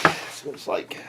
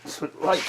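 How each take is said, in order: First: Voiceless whisper. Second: Said in the usual way. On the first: Shown as a demonstration. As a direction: drop to a whisper on the repeat. Repeats line, then whispers it.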